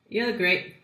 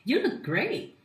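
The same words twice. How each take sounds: First: It sounds flat, critical and sarcastic. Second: It sounds warm, positive and sincere. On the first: The compliment is dismissive, as if adding so what. "Flat ... The tone might sound a bit critical, like sarcastic" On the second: The compliment is genuinely meant. "the first one, I smiled ... I showed positive energy ... I did try to make the tone more sincere"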